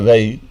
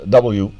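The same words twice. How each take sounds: First: The letter is said the Dutch way. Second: The letter is said the English way. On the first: "We say W" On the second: "but you say D uh, W"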